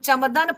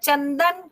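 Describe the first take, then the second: First: The nasal before d sounds like m. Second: The nasal before d sounds like n. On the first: The speaker calls it wrong. "हम चमदन पढ़ लें" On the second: The speaker calls it right. "हम उसको ना ही क्यों पढ़ें?"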